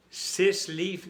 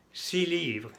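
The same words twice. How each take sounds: First: Six livres with the x said as s; wrong x sounded. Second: Six livres said si livʀ, x dropped; silent x. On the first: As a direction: say six livres pronouncing sis. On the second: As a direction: drop the x of six before livres. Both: Shown as a demonstration. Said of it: "no, six livres".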